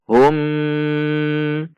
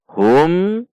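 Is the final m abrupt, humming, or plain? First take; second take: humming; plain. First: The final m is held with a nasal hum. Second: The final m is plain and moderate. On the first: The speaker calls it wrong. "tidak boleh dibaca dengung seperti contoh hum" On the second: The speaker calls it right. "dibaca jelas"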